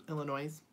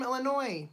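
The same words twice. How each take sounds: First: Illinois? said with a z sound at the end, "Illinoiz", as a doubtful question; trying out Illinois with the final S voiced as z. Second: Illinois said with no S at the end, ending on "noy"; Illinois ends on the vowel, the S left silent. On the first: Testing the wrong pronunciation for chat, Illinois with a z. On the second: Reading a viewer's greeting aloud, saying Illinois with a silent S. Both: Shown as a demonstration. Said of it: "You don't pronounce the S, right?".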